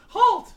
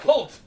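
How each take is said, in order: First: It is said in a put-on girl voice. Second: It is said in the speaker's normal voice.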